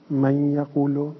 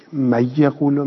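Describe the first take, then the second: First: من یقولو with a nasal hum held on the merged nun; with ghunna. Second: من یقولو with the nun merged into the ya and no nasal sound; without ghunna. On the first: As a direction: push the nun of من through the nose into یقولو. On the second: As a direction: glide من into یقولو with no nasal hum. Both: Shown as a demonstration.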